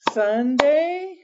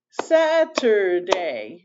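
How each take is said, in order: First: Said in the usual way. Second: Saturday said slowly, each syllable apart; syllables split. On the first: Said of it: "days of the week ... are two syllables". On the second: Shown as a demonstration. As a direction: break Saturday into Sat-ur-day. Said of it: "You can hear those three syllables".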